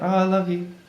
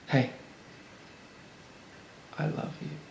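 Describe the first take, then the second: First: It is said quickly and offhandedly. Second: It is said slowly, with a deliberate pause.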